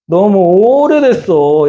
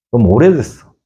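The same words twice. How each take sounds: First: Slow, drawn-out sigh of a complaint, pitched higher; weary complaint. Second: Said in the usual way. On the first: Acted. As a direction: stretch it out like a tired, wronged man. Abraham's weary complaint voiced. (지친 듯 느리게 늘어뜨린 하소연)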